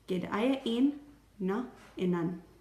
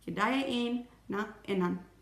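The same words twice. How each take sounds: First: The phrase is said slowly, with a pause. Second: The phrase is said at a normal pace.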